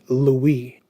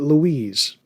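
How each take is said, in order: First: The name ends without an S sound. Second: The name ends with an S sound. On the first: This is how the name is actually pronounced. "They pronounce it Louis. Where's the S?" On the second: This is how the speaker expected the name to sound. "Why isn't it Louise?"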